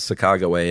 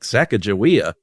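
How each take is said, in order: First: The name ends with a 'way' sound. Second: The name ends with an 'ee-uh' sound. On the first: This is the original native form of the name. The speaker calls it right. "the native pronunciation is Sacagaway" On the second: This is the Americanized form of the name. The speaker calls it wrong. "Americans were like Sacagawea"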